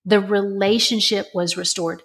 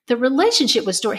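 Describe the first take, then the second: First: Said in the usual way. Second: Relationship lifted higher, said faster; stress on relationship. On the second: Shown as a demonstration. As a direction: hit relationship and hurry the line.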